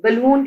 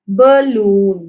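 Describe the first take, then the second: First: Said in the usual way. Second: balloon drawn out as ba-loon; teacher stretching ba, loon in balloon; syllable by syllable. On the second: Shown as a demonstration. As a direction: say balloon slowly in two falling beats. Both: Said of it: "टू syllables हैं".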